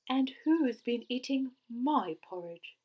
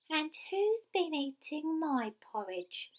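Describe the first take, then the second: First: It is said in a cross voice. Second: It is said in a squeaky little voice.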